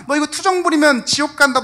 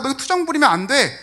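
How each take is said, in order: First: Loud, high threat with 부리면 hit hard; 부리면 punched loud and falling, a scolding threat; harsh warning. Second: 투정 stressed, falling and loud; scolding stress. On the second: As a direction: hit 투정 as a stern reprimand. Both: Retold or imitated. Rebuking a suffering friend.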